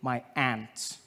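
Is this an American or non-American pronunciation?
American. It is said in an American accent.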